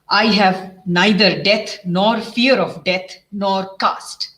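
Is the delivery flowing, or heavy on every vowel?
heavy. Every vowel is hit hard and separately. The speaker calls it wrong. "eastern side के हिसाब से"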